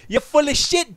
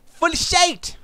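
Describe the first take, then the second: First: Said in the usual way. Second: High-pitched mock-British "shit", said as "shite"; jeering fake British twang on "shit"; mock British accent. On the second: Mocking British executive, shit becomes shite.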